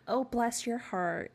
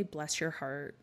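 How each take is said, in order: First: High, drawn-out, gushing sweetness; syrupy-sweet mock sympathy; fake sweet. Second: Said in the usual way. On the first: Shown as a demonstration. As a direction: coo it slowly, louder and higher, as if truly sympathetic. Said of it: "It's not sweet". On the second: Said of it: "when they say".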